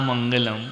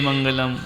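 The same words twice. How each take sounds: No difference in how they are said.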